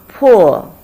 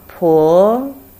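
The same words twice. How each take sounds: First: It is said with the fourth tone. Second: It is said with the second tone. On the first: "Fourth tone" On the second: "Second tone"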